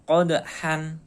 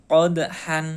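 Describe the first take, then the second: Both takes have the same delivery.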